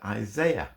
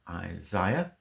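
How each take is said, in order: First: It is said with an American pronunciation. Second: It is said with a British pronunciation. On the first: The speaker calls it right. "the Americans pronounce it Isaiah" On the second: The speaker calls it wrong. "we British pronounce it Isaiah"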